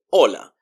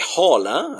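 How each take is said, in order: First: Hola said as "OH-la", no h; hola starting straight on the vowel; silent H. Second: Hola with a breathy English h at the start; hola mispronounced with an audible h; wrong sounded H. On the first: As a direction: drop the h from hola entirely. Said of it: "it's mute". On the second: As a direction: voice the h in hola as "HOH-la". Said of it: "So we wouldn't say". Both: Shown as a demonstration.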